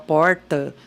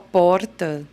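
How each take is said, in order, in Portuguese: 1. É dito com sotaque do interior, da zona rural. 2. É dito com sotaque da cidade de São Paulo. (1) "o caipira que fala porta" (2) "aqui em São Paulo a gente fala porta"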